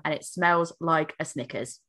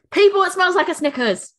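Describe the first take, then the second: First: Said in the usual way. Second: High and loud, delighted announcement; excited. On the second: Real, not acted. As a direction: proclaim it to the listeners, thrilled. Repeated louder to audience.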